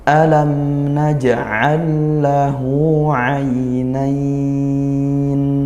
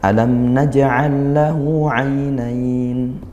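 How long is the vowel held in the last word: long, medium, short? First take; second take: long; short. First: The final word's vowel is held very long. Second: The final word's vowel is held briefly. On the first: The recitation is at a slow tempo. "tiga alif seperti itu" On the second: The recitation is at a fast tempo.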